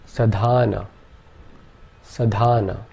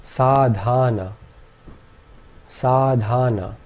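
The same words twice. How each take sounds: First: Sadhana said clearly; demo word. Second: Sadhana said slowly; sadhana, drawing out each syllable slowly; slow demo. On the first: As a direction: sadhana as a careful model. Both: Shown as a demonstration. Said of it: "this word would be pronounced".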